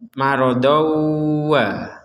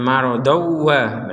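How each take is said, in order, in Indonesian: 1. Dengung sengau ditahan dalam waktu sedang. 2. Diucapkan dengan cepat tanpa dengung sengau. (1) "Jadi didengungkan ... kurang lebih dua harokat juga untuk dengungnya" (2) "Kalau kecepatan marodowa berarti nggak ada dengung"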